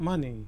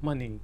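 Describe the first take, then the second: No difference in how they are said.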